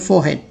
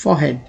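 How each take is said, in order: No difference in how they are said.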